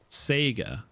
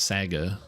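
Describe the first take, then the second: First: The first vowel sounds like 'say'. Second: The first vowel sounds like 'sah'. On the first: This is how someone else says it. "Community manager Cardovan pronounces it Sega" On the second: This is how the speaker thinks it should be said. "I think it's more like Saga"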